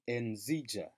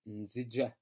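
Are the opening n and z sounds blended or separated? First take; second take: separated; blended. First: The n and z are pronounced separately. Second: The n blends smoothly into the z. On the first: The speaker calls it wrong. "don't be tempted to pronounce that as nzija" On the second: The speaker calls it right. "but bleed into that"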